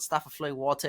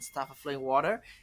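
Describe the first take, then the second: First: It is said with a British accent. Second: It is said with an American accent.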